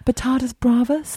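It is said with an English accent. "I was doing it in a pseudo English accent"

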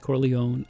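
The name is said with an American pronunciation. "but the American is Corleone"

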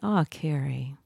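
It sounds soft and kindly comforting.

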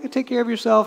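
It sounds kind and caring.

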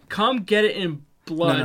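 It is read in a flat, neutral tone. "You gotta read that again"

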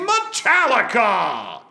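It is said in a booming radio announcer voice. The speaker calls it right. "you have to say it in the radio announcer"

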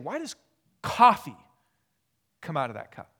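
The word coffee is strongly emphasized. It asks why coffee rather than another drink.

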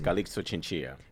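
The name is said with a Spanish accent. "In Spanish, it's"

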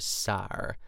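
It is said the Pittsburgh way, like sar.

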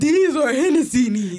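It is said in a fierce, intense way.

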